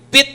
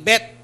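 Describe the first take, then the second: First: The vowel is a short 'ih' sound. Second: The vowel is an open 'eh' sound. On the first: The speaker calls it right. "Yung bit" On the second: The speaker calls it wrong. "nagiging bet"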